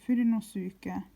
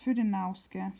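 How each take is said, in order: First: The ending is said as three syllables, 'no-su-ke'. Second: The ending is squeezed into one syllable, 'nauske'. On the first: The speaker calls it right. "it's Fudenosuke" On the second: The speaker calls it wrong. "Not Fudenauske"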